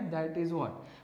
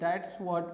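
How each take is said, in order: First: 'That is' is said as two full words. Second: 'That is' is contracted to one syllable. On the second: "शॉर्टकटमध्ये दॅट्स what पण म्हणू शकतो"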